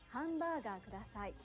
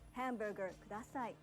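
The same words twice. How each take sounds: First: The loanword is said with a Japanese accent. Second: The loanword is said with an English accent. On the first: The speaker calls it right. "Instead, you'll say" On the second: The speaker calls it wrong. "pronouncing loan words with an English accent"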